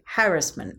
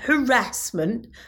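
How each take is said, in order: First: The stress is on the first syllable. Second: The stress is on the second syllable. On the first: The speaker calls it right. "That is the correct way of pronouncing it" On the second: The speaker calls it wrong. "not harassment"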